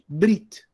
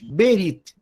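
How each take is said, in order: First: The b and r are joined with no vowel. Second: A vowel is said between the b and r. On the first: "se acostumou em hebraico ler essa palavra como brit" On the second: This is the reading used in academic circles. "À primeira vista, nós leríamos berit"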